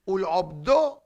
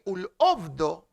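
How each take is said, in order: First: "Ul'obdo" with a voiced throat ayin; proper ayin sound. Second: "ul'obdo" with a plain glottal aleph, no throat ayin. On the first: Teacher quoting the Shema, "Ul'obdo" with a proper ayin. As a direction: start the second part of "Ul'obdo" on an ayin. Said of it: "instead of ayin". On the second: Teacher showing a reader's mistake, "ul'obdo" with aleph for ayin. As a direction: misread "ul'obdo" with an open aleph vowel. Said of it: "you say aleph". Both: Shown as a demonstration.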